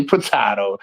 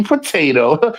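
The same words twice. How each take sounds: First: "potato" with middle vowel as flat A in cat; short A pronunciation. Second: "potato" with middle vowel as AY; long A pronunciation. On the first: Contrasting his own way, "potato" as puh-TAT-oh. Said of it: "I say potato". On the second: Contrasting how others say it, "potato" with an AY. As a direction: say "potato" as puh-TAY-toh. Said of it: "you say potato". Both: Shown as a demonstration.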